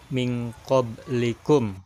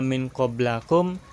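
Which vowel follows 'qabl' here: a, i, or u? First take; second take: i; a. First: The vowel after qabl is i. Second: The vowel after qabl is a. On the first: The speaker calls it right. "tetapi min qablikum" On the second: The speaker calls it wrong. "enggak min qablakum"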